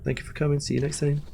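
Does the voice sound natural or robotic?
natural. It is said in a natural human voice. The speaker calls it wrong.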